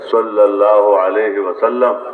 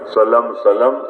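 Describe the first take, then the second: First: The phrase is said fully and carefully. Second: The phrase is clipped and rushed together. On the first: It is said with attention and respect. The speaker calls it right. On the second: It is said without attention or respect. The speaker calls it wrong.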